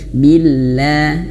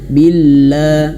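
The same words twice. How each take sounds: First: The L sound is thin and light. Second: The L sound is thick and heavy. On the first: The speaker calls it right. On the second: The speaker calls it wrong. "la-nya itu tebel. Jangan"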